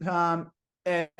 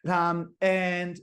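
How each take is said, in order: Both takes have the same delivery.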